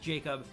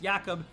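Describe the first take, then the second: First: The name is said in the Canadian way. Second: The name is said in a non-Canadian way. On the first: "where I am from in, in Canada, it's pronounced Jacob" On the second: "I know in some places it's pronounced Jakob"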